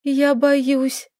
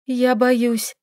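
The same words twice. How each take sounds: First: Scared, shaky repeat; trembling lips. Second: Frightened. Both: A narrator's reading. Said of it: "дрожащими губами повторила она".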